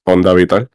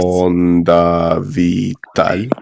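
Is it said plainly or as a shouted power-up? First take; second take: plainly; power-up. First: It is said plainly, in a normal voice. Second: It is said in a charged power-up voice.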